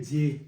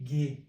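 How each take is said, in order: First: The syllable begins with a j sound. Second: The syllable begins with a hard g sound. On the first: The speaker calls it right. "इसको बोलेंगे जे" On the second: The speaker calls it wrong. "न कि गे, गे नहीं"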